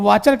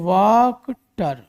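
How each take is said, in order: First: The middle consonant is a 'ch' sound. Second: The middle consonant is a 'k' sound. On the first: "तो वाचर कह सकते हैं।" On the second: "उसमें भी सी एच होता है। तो अब इसको क्या पढ़ेंगे"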